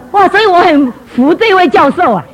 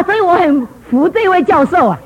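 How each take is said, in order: First: Louder, slow admiring 哇 drawn out; emphatic admiration. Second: Said in the usual way. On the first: Shown as a demonstration. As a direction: really savour 哇 and lean on every word. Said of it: "repeated line, emphatic take". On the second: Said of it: "repeated line, first take".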